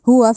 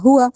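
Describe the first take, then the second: The two takes are said the same way.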